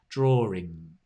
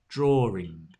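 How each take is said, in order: No difference in how they are said.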